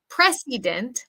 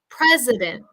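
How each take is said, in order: First: The second vowel is a full I sound. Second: The second vowel is a reduced schwa sound. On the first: The speaker calls it wrong. "we don't want to say precedent" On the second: The speaker calls it right. "the schwa I sound"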